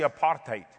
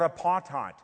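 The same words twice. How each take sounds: First: The word is said with Afrikaans pronunciation. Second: The word is said with English pronunciation. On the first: The speaker calls it right. "It's actually apartheid, which is actually an Afrikaans word" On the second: The speaker calls it wrong. "You're not even pronouncing it correctly"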